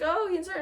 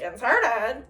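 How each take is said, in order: First: "inserted" said as a statement; higher-pitched telling, "inserted" not questioned; retold statement. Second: "Inserted" with a rising questioning end; retold question. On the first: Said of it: "then she's like". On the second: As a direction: echo "Inserted" back as a question. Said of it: "And she's like".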